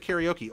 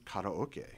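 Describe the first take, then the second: First: It is said with an ordinary English pronunciation. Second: It is said with a Japanese-style pronunciation. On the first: The speaker uses the everyday local form. The speaker calls it right. "we're gonna say karaoke" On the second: The speaker is showing off foreign pronunciation. The speaker calls it wrong. "I'm not gonna walk and go"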